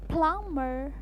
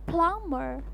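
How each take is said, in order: The two takes are said the same way.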